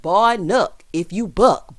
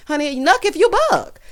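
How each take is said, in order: First: Measured, rhythmic spoken rap; rap recital. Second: High-pitched, spoken mock dare; animated, pitched-up sass; sassy challenge. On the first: Retold or imitated. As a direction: recite it as a slow rap hook. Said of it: "in the illustrious words of [name] and Crime Mob". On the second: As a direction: throw it out as a playful challenge. Repeats the lyric as own challenge.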